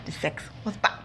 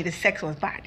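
First: "the sex was bad" breathed in a whisper; confiding the verdict in a whisper; whispered aside. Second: Said in the usual way. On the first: Shown as a demonstration. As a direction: drop to a whisper like a secret. Repeated, second take whispered.

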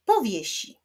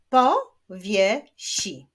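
First: Said in the usual way. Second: "Powiesi" slowly and loudly as po, wie, si; split into syllables. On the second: Shown as a demonstration. Teacher clapping syllables of powiesi, slowly split. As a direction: clap out "Powiesi" in three separate beats. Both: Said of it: "Wyklaszczmy sylaby".

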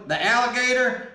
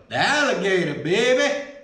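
First: Said in the usual way. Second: Attempted Cajun accent. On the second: Trying the alligator jerky on camera, attempted Cajun accent. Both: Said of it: "that's my Cajun voice, or attempt".

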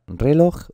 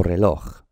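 First: Reloj stressed on RE, slowly; wrong first-syllable stress. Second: Reloj stressed on LOJ, asking; stress on final syllable. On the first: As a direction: hit RE in reloj as a wrong option. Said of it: "¿Esto cómo se pronuncia?". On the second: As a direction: lift onto LOJ in reloj. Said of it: "Se pronuncia reloj". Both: Shown as a demonstration.

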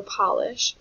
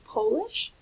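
First: POLISH as pah-lish, slow and loud; short ah. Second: POLISH as poh-lish, pitched high; long O. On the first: Teacher contrasting with furniture polish, slow short-vowel pronunciation. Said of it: "like the furniture polish". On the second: Teacher asking if she is from Poland, long-O pronunciation. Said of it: "like from Poland". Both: Shown as a demonstration.

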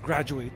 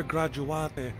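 First: Graduate said as English GRAD-joo-ate; English pronunciation. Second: Graduate said Italian-style, gra-doo-AH-tay; Italian-style pronunciation. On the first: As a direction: say Graduate English-style, with silent final e. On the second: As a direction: sound the final e in Graduate as "tay". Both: Real, not acted. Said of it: "I might pronounce it wrong".

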